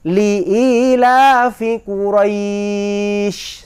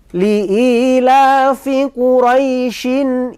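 First: Quraisy ends on a consonant with a stop. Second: Quraisy ends in -in and runs on. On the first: The reading stops on this word. "Coba sekarang kita jadikan matlin" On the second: The reading continues on without stopping. "Quraisy tidak dijadikan matlin, maka diwasolkan"

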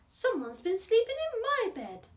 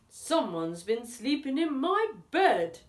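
First: It is said in a gasping breathy voice. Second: It is said in a booming deep voice.

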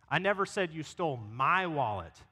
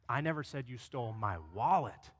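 First: The stress is on "my". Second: The stress is on "wallet".

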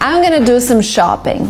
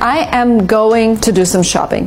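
First: The words are joined and shortened together. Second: Each word is said separately and fully.

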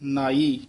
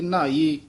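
First: The word is pronounced with a soft, light sound. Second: The word is pronounced with a hard, full sound. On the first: The speaker calls it right. "ਪੋਲਾ ਉਚਾਰਨ ਕਰਨਾ ਹੈ" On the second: The speaker calls it wrong. "ਇੱਥੇ ਨਾਈ ਨਹੀਂ ਬੋਲਣਾ ਹੈ"

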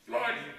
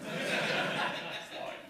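First: The word is said more loudly. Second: The word is said more quietly.

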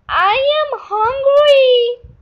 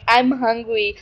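First: It is said in a put-on pet voice. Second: It is said in a normal voice.

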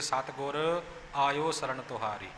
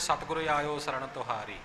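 First: There is a pause after Satgur. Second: It is said straight through without a pause.

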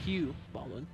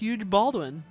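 First: The first name ends with a vowel sound. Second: The first name ends with a 'j' sound. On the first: The speaker calls it right. "I'm sorry" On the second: The speaker calls it wrong. "I didn't know I was pronouncing that incorrectly"

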